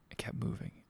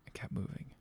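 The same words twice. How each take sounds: First: Hushed repeated whisper; suspense whisper. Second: Even fainter whisper, dying away; softer whisper. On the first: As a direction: whisper it, building dread. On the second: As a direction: let it fade into a breath. Suspense as narrator whispers. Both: A narrator's reading.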